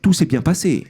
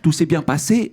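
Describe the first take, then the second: First: Corsican accent, the voice does not rise at the end. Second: Mainland French accent, the voice rises at the end.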